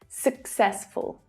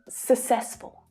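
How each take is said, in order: First: The first syllable ends with a K sound. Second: The first syllable ends without a K sound. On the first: The speaker calls it right. "The first C is pronounced as a K sound at the end of the first syllable" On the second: The speaker calls it wrong. "take a guess and say successful, which is a nice try"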